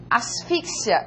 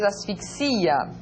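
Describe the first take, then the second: First: Asfixia stressed on FIX, ending in a quick "sya"; Spanish stress. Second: Asfixia slowly, long stressed XI, falling; Portuguese stress. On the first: Teacher reads Asfixia as Spanish for learners, stress on FIX. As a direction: say Asfixia as as-FIK-sia. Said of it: "en español". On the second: Teacher reads asfixia as Portuguese for learners, stress on XI. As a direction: say asfixia as as-fik-SI-a. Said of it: "en portugués". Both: Shown as a demonstration.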